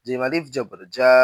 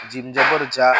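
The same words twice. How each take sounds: First: Final জা with a long a; জা held long; stretched vowel. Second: Final জা with a short a; no stretch. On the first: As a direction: draw out the last জা. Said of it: "জবরে আমরা টান দিব". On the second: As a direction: cut the last জা short. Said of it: "তখন কোথাও টান দিব না". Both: Shown as a demonstration.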